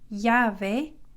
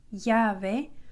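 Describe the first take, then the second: First: It begins with a Y sound. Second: It begins with a Y sound.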